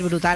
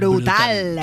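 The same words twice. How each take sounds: First: The word is said lightly and casually. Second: The word is said with strong emphatic force. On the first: The speaker calls it wrong. "no se puede decir brutal así como que no quiere la cosa" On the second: The speaker calls it right. "hay que decir brutal"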